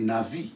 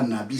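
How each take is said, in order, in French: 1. La consonne du milieu est un son v. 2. La consonne du milieu est un son b. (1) "c'est Navi" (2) "ce n'est pas Nabi"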